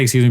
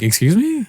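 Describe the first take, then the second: First: Said in the usual way. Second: High, rising "Excuse me?" in mock outrage; indignant excuse me. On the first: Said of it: "I didn't say". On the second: Answering the salesman's thousand-dollar ask, high indignant "Excuse me?". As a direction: sound offended by the "Excuse me?". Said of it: "I didn't say "Excuse me".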